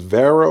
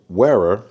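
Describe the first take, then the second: First: The name begins with a V sound. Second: The name begins with a W sound. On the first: "in some countries they pronounce the W as a V" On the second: "we're gonna say Wera"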